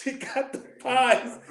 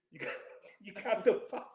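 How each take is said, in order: First: Drawn out, higher and louder; slow emphatic. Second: Chuckling through the words; laughing. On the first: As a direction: spell it out slowly, word by word. Repeats it slowly for emphasis. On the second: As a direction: laugh while you say it. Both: Real, not acted.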